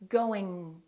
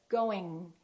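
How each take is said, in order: Both takes have the same delivery.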